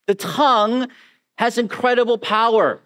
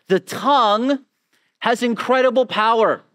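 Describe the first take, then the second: No difference in how they are said.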